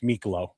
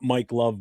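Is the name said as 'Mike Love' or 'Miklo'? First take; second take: Miklo; Mike Love. First: It is said as one word, 'Miklo'. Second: It is said as two words, 'Mike Love'. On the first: The speaker calls it right. "it's Miklo" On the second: The speaker calls it wrong. "it's not Mike Love"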